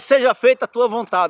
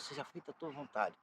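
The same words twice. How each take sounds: First: It is said loudly and eagerly. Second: It is said quietly, with lowered voice.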